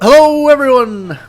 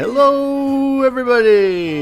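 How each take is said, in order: First: The greeting is said very loudly. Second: The greeting is said at a quieter level.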